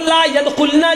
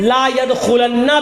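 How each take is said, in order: First: The n sound in the verb is single. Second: The n sound in the verb is doubled. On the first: Such women will not enter paradise. "ला यदखुलना की जगह" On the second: Such women will never, under any condition, enter paradise. "बाज लोगों ने यहां पर ... ला यदखुलन्ना भी लिखा है"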